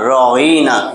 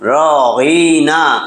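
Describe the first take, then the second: First: The middle vowel is short, without a drawn-out glide. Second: The middle vowel is drawn out with a stretched glide. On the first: The speaker calls it right. "আইন জের ই" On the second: The speaker calls it wrong. "ইয়া একটা আনছে টান"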